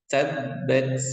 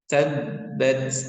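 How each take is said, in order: First: The b sound is doubled and pressed. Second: The same.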